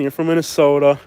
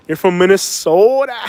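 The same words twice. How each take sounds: First: Said in the usual way. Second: Exaggerated Minnesota accent, drawing out the name; mock Minnesota accent. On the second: Teasing northerners who can't hide where they're from, hammed-up Minnesota accent. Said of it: "your accent's gonna give you up".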